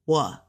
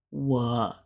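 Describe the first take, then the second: First: 我 going straight up; one upward glide on 我; straight rising tone. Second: 我 low, down then up; dipping tone. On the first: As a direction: lift 我 upward with no dip. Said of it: "It'll go straight up". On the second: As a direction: dip 我 low before any lift. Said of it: "like a down and a up". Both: Shown as a demonstration.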